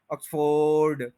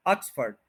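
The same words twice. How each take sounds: First: ऑक्सफोर्ड slow, as uks-FOOOARD; lengthened wrong vowel. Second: ऑक्सफर्ड as OKS-furd; short weak vowel ending ऑक्सफर्ड; correct pronunciation. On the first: Teacher showing the error, ऑक्सफोर्ड as uks-FOOOARD. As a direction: drag the second O of ऑक्सफोर्ड long. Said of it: "इसको हम लंबा कर देते हैं". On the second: Teacher modelling the fix, ऑक्सफर्ड as OKS-furd. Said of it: "वो ई बन जाएगा". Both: Shown as a demonstration.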